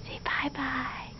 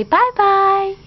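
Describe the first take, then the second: First: Breathy whisper, slow "Say bye-bye". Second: High, loud cooing "Bye-bye"; sing-song bye-bye. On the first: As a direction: coax "bye-bye" in a hushed whisper. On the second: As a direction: model "Bye-bye" brightly for a toddler. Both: Shown as a demonstration. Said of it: "You say".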